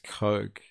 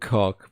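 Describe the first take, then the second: First: The vowel is a long 'oh' sound. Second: The vowel is a short 'o' sound. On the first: "I thought it was pronounced Coke" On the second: "not cock"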